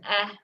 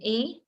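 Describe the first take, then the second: First: It is said as a short sound, eh. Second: It is said as the letter name, ee. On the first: The speaker calls it right. "we would sound out as an eh" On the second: The speaker calls it wrong. "not as an e"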